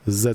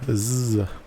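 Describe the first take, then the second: First: The letter is said the Canadian way. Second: The letter is said the American way.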